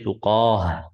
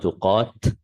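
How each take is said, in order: First: The word ends with an h sound. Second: The word ends with a t sound. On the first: The speaker calls it right. "why did I say tuqah" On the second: The speaker calls it wrong. "and not tuqat"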